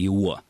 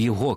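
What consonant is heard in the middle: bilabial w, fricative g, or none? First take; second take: bilabial w; fricative g. First: The middle consonant is a bilabial w. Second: The middle consonant is a fricative g. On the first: "губно-губной «его»" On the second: "«г» здесь будет фрикативно"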